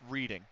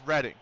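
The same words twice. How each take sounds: First: It sounds like the verb 'reading'. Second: It sounds unlike the verb 'reading'. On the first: This is how the locals pronounce it. The speaker calls it wrong. "they pronounce it reading" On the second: This is the proper name of the place. The speaker calls it right. "It's Reading"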